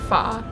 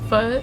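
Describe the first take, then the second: First: The vowel is an open 'ah' sound. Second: The vowel is not an open 'ah' sound. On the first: This is closer to the local way. The speaker calls it right. "later I learned I think it's like fa" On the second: This is the usual way back home. The speaker calls it wrong. "is how I used to pronounce it"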